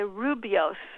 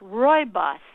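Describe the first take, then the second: First: The first syllable sounds like 'roo'. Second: The first syllable sounds like 'roy'. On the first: The speaker calls it wrong. "a lot of people say rubios" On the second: The speaker calls it right. "it's like a guy's name, Roy, and he's your boss"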